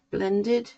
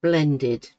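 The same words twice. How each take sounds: First: "Blended" higher, rising into a question; loud "Blended" with an upward questioning tune; questioning the word. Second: "blended" said loud with a falling tune; "blended" landed as the end of a sentence; falling statement. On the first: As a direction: query "Blended" as if checking the word. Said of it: "Yes, that's the word, isn't it". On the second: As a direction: state "blended" firmly, letting the pitch fall. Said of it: "Yes, that's the word". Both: Real, not acted.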